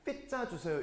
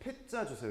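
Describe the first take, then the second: First: The p sound is soft, without a burst. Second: The p sound bursts out with strong air. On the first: The speaker calls it wrong. "이러면 완전 병신이에요" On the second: The speaker calls it right. "그게 아니고 피자 주세요 이렇게 하죠. 그죠? 터지는 소리야"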